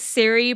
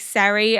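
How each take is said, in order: First: The first vowel sounds like 'ee'. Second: The first vowel sounds like 'ah'. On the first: The speaker calls it wrong. "I've been saying Siri" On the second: The speaker calls it right. "I think it's probably Sari"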